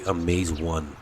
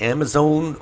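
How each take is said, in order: First: The word begins with the sound of 'amaze'. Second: The word sounds like the name Amazon. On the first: "I'm going to say Amaze-One because it amazes me" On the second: "is it Amazon or Amaze-One?"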